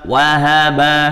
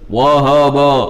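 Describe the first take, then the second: First: The vowels are open and clear, like a. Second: The vowels are dark and rounded, like o. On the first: The speaker calls it right. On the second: The speaker calls it wrong. "jangan sampai zahaba dibacanya tebal"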